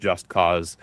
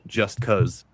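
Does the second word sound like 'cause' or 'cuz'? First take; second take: cause; cuz. First: The second word has a long 'aw' vowel. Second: The second word has a short 'uh' vowel.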